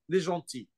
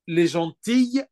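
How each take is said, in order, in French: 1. Le mot se termine par une voyelle, pas de son L. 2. Le mot se termine par un son L audible.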